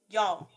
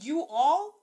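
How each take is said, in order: First: The words are merged into a single syllable. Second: The words are said as two separate syllables.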